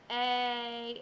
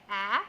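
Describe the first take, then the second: First: "A" said like its letter name, long; long A sound. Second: "ah" said as the short A vowel; short A sound. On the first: Teacher showing children the long A sound. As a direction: give the long A as "A". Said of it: "it's long sound". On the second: Teacher showing children the short A sound. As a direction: show the short A as "ah". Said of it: "it's short sound". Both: Shown as a demonstration.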